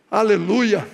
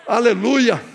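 No difference in how they are said.

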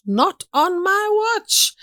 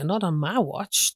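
First: Very high, drawn-out mock indignation; indignant vow. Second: Said in the usual way. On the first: Speaker recalls vowing against the brothel on the street, indignant vow. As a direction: stretch each word and soar up in pitch.

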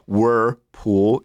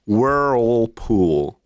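First: Whirlpool with a flat Czech vowel, slow; wrong Whirlpool. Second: Whirlpool drawn out very slowly with a curled er; right Whirlpool. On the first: Retold or imitated. Teacher showing the wrong way to say it. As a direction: mispronounce Whirlpool on purpose. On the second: Shown as a demonstration. Teacher modelling the correct brand name. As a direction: stretch Whirlpool out carefully. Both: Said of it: "it's not Whirlpool".

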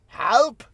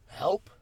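First: "Help" pushed up into an exaggerated question. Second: Said in the usual way. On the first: Shown as a demonstration. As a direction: read "Help" with an audible question mark, vowel opened toward "halp". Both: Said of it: "Question mark".

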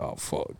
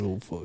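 First: Whispered under breath, voice dropped away; a soft hushed oh fuck at the bill; retold muttered curse. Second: Low, quiet groan at the price; quiet oh fuck, lower and resigned; retold muttered curse. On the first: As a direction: mutter it to yourself in dismay. Retold reaction to the check. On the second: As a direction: sink into it, deflated. Retold reaction to the bill.

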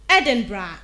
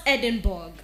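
First: Edinburgh said ED-in-bruh; Edinburgh ending in bruh; correct pronunciation. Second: Edinburgh said ED-in-burg; Edinburgh with a hard burg ending; common mispronunciation. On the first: Diction host modelling ED-in-bruh. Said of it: "pronounced correctly as Edinburgh". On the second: Host warning listeners off ED-in-burg. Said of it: "and not Edinburgh". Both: Shown as a demonstration.

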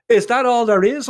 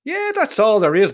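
First: "Is that all there is" pitched high and louder as a question; "Is that all there is" as a high-pitched query. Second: "that's all there is" as an assured, higher-pitched statement; "that's all there is" stated, not asked; confirming answer. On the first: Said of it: "I asked him". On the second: Answers the question just asked. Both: Acted.

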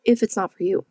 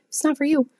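First: Said in the usual way. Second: "not" lifted much higher on the repeat; emphatic repeat. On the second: Real, not acted. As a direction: push the repeat way up in pitch for emphasis. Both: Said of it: "repeated for emphasis".

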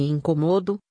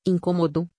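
First: "incomodo" com força na sílaba MO; sílaba tônica MO. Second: "incômodo" com força na sílaba CÔ; sílaba tônica CÔ. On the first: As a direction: diga "incomodo" como paroxítona, acento em MO. ("incomodo", verbo, tônica na penúltima sílaba MO) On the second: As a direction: diga "incômodo" como proparoxítona, acento em CÔ. ("incômodo", substantivo, tônica na antepenúltima sílaba CÔ) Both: Shown as a demonstration. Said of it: "diferenciar palavras por meio da acentuação".

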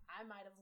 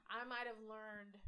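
First: Choking on a drink. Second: "I might have learned" said slowly after choking; slow careful retry. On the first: Real, not acted. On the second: Shown as a demonstration. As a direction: restart the words slowly, recovering. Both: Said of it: "sorry, I keep choking".

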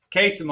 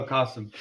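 First: "Kasim" said with an "ay" in the first syllable; mispronounced name. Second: "Qasim" said with an open "ah" in the first syllable; corrected name pronunciation. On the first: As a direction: say "Kasim" as KAY-sim. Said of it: "Sorry, Qasim". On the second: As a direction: say "Qasim" as KAH-sim. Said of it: "No, Kasim". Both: Real, not acted.

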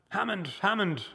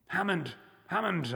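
First: Crying out. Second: Despairing cry. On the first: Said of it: "I cried". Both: A narrator's reading.

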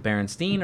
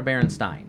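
First: "Berenstein" ending in a long-ee "steen". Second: "Berenstein" ending in "stine". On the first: Host quizzes friends on the bears' name, "Berenstein" said with "steen". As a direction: say "Berenstein" to rhyme its end with "seen". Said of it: "Is it Berenstein or Berenstein". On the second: Host offers the other option in a quiz, "Berenstein" said with "stine". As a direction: say "Berenstein" to rhyme its end with "sign". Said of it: "But it's spelled Stein". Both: Shown as a demonstration.

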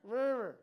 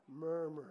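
First: Failed attempt at a cheery "Murmur"; trying to smile. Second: Low, glum "Murmur"; frowning. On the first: Preacher shows congregation you can't smile saying murmur, forced smile. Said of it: "can't even smile and say murmur". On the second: Preacher shows the word makes you frown, glum and low. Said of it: "makes you frown". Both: Shown as a demonstration.

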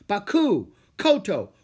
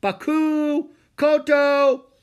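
First: Loud, raised-pitch summons; scolding call to stray pupils. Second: Very high, loud held calls; long, carrying shout; ringing shout. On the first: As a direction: call the names with falling endings. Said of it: "he called out to Jack and Annie". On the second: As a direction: holler the names from far away. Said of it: "he heard a voice shout". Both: A narrator's reading.

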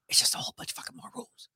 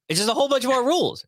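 First: Fast unvoiced whisper; whispered aside. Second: Said in the usual way. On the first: Host slipping listeners a blunt aside on legalization rules, whispered. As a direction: whisper it quickly, like a confidential aside.

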